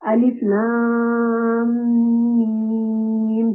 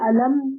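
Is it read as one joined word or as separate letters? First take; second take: separate; joined. First: Each letter is named separately, one by one. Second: The letters are blended into one word. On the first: The speaker calls it right. "यानी काट-काट कर पढ़ेंगे" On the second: The speaker calls it wrong. "ये अल अलम नहीं पढ़ेंगे"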